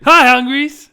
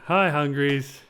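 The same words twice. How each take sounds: First: It is said brightly, with high energy. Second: It is said tiredly, with low energy.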